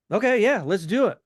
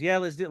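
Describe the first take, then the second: First: Higher, louder, easygoing yes; casual agreement. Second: Relaxed, easygoing yes; casual agreement. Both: Shown as a demonstration. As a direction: agree like it's no big deal. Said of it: "my tone of voice is".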